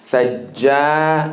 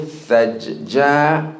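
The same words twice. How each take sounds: First: The doubled j is held together unbroken. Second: The doubled j is split with a break. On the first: The speaker calls it right. "put the shadda completely together again" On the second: The speaker calls it wrong. "don't say thajja. That's a mistake"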